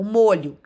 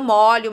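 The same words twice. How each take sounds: First: The stressed o is a closed vowel. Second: The stressed o is an open vowel. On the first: It is a noun meaning sauce or bunch. "eu pronuncio essa palavra com um som fechado" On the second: It is a verb meaning to wet. "eu pronuncio com som aberto"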